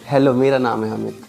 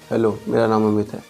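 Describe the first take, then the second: First: It is said warmly, with a big smile. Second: It is said flatly, without a smile.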